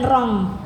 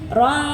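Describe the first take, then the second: First: The nasal ends with a clear ng sound. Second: The nasal is a soft, hidden n sound. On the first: The speaker calls it wrong. "bukan rong. Rong salah kalau rong" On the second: The speaker calls it right. "Jadi ron gitu ya"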